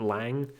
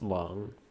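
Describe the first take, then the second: First: The vowel sounds like the a in bang. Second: The vowel sounds like the o in song. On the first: The speaker calls it wrong. "I used to always refer to refer to him as Agent Lang" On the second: The speaker calls it right. "it's probably supposed to be pronounced Long"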